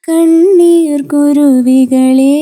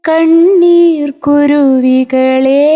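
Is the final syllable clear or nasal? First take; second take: nasal; clear. First: The last syllable sounds nasal and unclear. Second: The last syllable sounds clear and open. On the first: The speaker calls it wrong. "കുറച്ച് nasal tone കൂടിയിട്ട് നമ്മൾ പറയുന്ന അക്ഷരം അത്ര clarity ഉണ്ടാവില്ല" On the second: The speaker calls it right. "കുറച്ചുകൂടെ clarity വരും"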